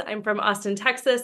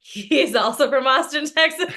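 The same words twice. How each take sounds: First: Said in the usual way. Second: "He" lifted, ends in a laugh on "Texas"; "He" stressed, "Austin, Texas" rising with a chuckle. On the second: Real, not acted. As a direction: lean on "He" and let "Texas" tip into laughter. Echoing her intro about husband.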